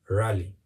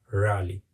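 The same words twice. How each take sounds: Both takes have the same delivery.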